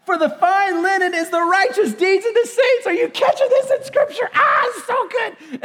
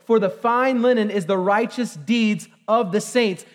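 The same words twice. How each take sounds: First: Much higher, near-shouting with laughter; overjoyed. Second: Said in the usual way. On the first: Real, not acted. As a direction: reread it bursting with joy. Rereading verse, overcome with joy. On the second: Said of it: "verse nine".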